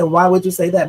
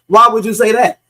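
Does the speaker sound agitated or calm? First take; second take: calm; agitated. First: The question is asked in a calm voice. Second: The question is asked in an agitated voice. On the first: He is not yet upset. "he sounds like he was still calm" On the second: He is already upset. "But then again, he could have said"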